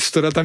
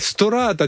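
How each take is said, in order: First: The second vowel is kept short. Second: The second vowel is drawn out long. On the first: The speaker calls it right. "ストラタみたいなこと" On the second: The speaker calls it wrong. "ストラータじゃなくて"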